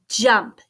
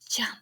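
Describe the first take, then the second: First: The word is spoken at normal volume. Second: The word is whispered softly. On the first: "can we say it?" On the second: "Can we whisper it?"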